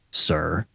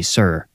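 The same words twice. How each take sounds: First: Low-volume venomous "sir"; poisonous. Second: Said in the usual way. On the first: A narrator's reading. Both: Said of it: "added poison to the second sir".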